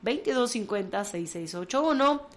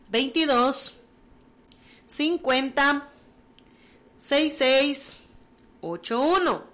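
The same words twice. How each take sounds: First: It is said fast. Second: It is said slowly.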